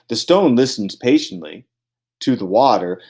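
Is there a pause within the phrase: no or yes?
yes. The phrase is broken by a pause. The line is treated as ending at the break. The speaker calls it wrong. "I didn't say"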